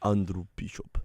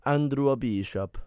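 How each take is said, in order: First: Lower, mock Russian accent. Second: Slow, put-on Italian accent. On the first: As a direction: say it low with a put-on Russian accent. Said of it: "which one sounds better?". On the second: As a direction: drag it out in a mock Italian accent. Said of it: "I did it Italian that way". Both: Shown as a demonstration.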